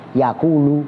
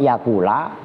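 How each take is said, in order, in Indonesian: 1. Kata itu diakhiri dengan bunyi u pendek. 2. Kata itu diakhiri dengan bunyi a pendek. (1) "bisa tetap utuh dibaca rofa" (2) "bisa dibaca nasab"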